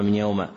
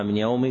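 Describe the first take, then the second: First: "يوم" with a final short a; fatha ending. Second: "يوم" with a final short i; kasra ending. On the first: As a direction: read "من يوم" as min yawma. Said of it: "وتارة نكتبها". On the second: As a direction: read "من يوم" as min yawmi. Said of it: "تارة نكتبها". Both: Shown as a demonstration.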